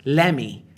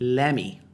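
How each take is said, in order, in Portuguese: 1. O t é omitido, soando como 'leme'. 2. O t é omitido, soando como 'leme'.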